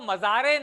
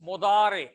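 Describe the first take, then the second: First: The middle consonant is a plain z sound. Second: The middle consonant is a heavy emphatic d sound. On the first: The speaker calls it wrong. "इसको मजारे नहीं कहना है आपने" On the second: The speaker calls it right. "मीम के ऊपर पेश और दौद के साथ"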